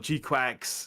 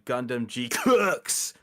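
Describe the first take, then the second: First: The second part sounds like 'quacks'. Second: The second part sounds like 'clerks'. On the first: "other people pronounce it as" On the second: "the only way I can think to pronounce that"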